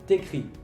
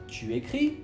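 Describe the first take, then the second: First: The u of tu is dropped. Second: The u of tu is pronounced.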